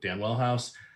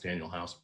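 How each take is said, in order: First: The first name is said as Dan Well. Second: The first name is said as Daniel. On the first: The speaker calls it wrong. "I say it that way just to, to tweak everybody" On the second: The speaker calls it right. "I know it's Daniel House"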